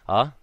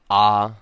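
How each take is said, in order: First: A short vowel with a smooth start. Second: A lengthened vowel with a sharp, abrupt start. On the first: "going back to the beginning" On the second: "creating a sharp sound before the vowel and a lengthened vowel sound"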